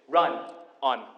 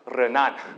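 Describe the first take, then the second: First: The name is said in a New York accent. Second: The name is said in a German accent.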